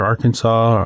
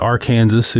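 First: It is said the usual, non-Kansas way. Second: It is said the Kansas local way.

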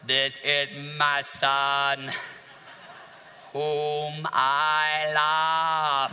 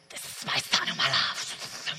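First: It is said in a flat, mechanical voice. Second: It is said in a soft, wispy voice.

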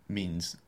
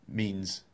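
The two takes are said the same way.

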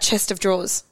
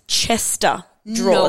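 First: The first word sounds like 'chest of'. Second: The first word sounds like 'Chester'. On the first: The speaker calls it wrong. "So I've always said" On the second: The speaker calls it right. "It's Chester drawers"

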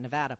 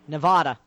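First: It is said in a plain accent. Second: It is said in a Boston accent. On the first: The speaker calls it right. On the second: The speaker calls it wrong.

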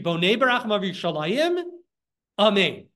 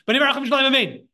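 First: There is a short pause before Amen. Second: Amen runs straight on without a pause. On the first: The speaker calls it right. "It's sort of like a little bit of a pause" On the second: The speaker calls it wrong. "you shouldn't say it like"

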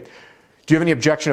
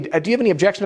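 First: The voice sounds forceful and authoritative. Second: The voice sounds soft and inquisitive. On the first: The speaker is confronting the listener. The speaker calls it wrong. "I'm using too much authority. Do you think that's gonna work? No, it's forceful" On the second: The speaker is genuinely asking the listener. The speaker calls it right. "this is an inquisitive tonality, which is gonna land better"

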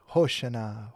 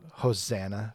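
First: It is said with the original, non-English pronunciation. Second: It is said with an English pronunciation. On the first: "is really Hosanna" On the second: "we don't say it that way"

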